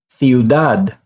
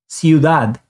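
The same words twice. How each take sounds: First: The first consonant is a TH sound. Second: The first consonant is an S sound. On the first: "it's going to sound like the T H in think" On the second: "it makes an S sound"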